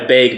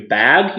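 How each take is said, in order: First: Bag said as "bayg"; Midwestern bag. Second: Bag with a flat short A, as in "cat"; corrected short-A bag. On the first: Retold or imitated. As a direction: say bag with a long A, near "beg". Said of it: "No fucking E in there". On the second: Shown as a demonstration. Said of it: "It's a fucking A".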